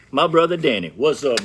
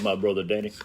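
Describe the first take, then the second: First: Calling out higher and louder; loud greeting call. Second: Said in the usual way. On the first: Real, not acted. Greeting his big brother Danny as he walks in, a loud call. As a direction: hail him across the room, bright and loud.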